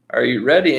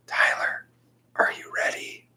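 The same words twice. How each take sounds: First: Said in the usual way. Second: Breathy voiceless whisper from the doorway; hushed ghostly call; eerie whisper. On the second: Retold or imitated. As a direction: whisper it like a ghost calling a kid.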